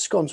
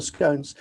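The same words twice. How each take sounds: First: "scones" with a short O, as "skonz"; "scones" with the short vowel of "on"; short-O pronunciation. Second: "scones" with a long O, as "skohnz"; "scones" with the vowel of "stone"; long-O pronunciation. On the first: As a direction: say "scones" to rhyme with "gone". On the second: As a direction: say "scones" to rhyme with "cones". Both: Shown as a demonstration. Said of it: "identify whether it's scones or scones".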